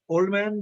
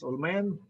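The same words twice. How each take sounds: First: The d at the end of old is pronounced. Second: The d at the end of old is dropped. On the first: "Old man becomes" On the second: "Combining that is omitted"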